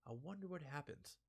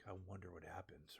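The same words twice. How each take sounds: First: Killer's menacing wonder. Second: Breathless ominous anime whisper; deep anime whisper. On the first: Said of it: "He just stares like". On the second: Reviewer imitating an anime close-up scene in a whisper. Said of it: "they just get in that deep". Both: Retold or imitated.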